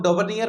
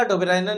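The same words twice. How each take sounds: First: डोबरनियर read as spelt, with a "ni-yar" ending; alternative pronunciation. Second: Said in the usual way. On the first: Shown as a demonstration. Teacher showing students how some people read the name, alternative pronunciation डोबरनियर. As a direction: say डोबरनियर ending in "-niyar", not "-rainer". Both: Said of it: "कुछ लोग डोबरनियर पढ़ते हैं".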